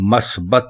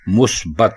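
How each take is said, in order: First: The first vowel is a. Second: The first vowel is u. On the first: The speaker calls it wrong. "लफ्ज़ मस्बत नहीं है; मीम के ऊपर जबर लगाकर इसको बोलते हैं, जो कि गलत है" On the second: The speaker calls it right. "बल्कि मुस्बत है; मीम के ऊपर पेश है"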